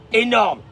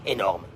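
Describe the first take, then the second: First: Énorme burst out high and loud; the boss is amazed, loud and high; loud exclaim. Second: Said in the usual way. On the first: Acted. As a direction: throw Énorme out like a cheer. Preacher repeats word, second burst.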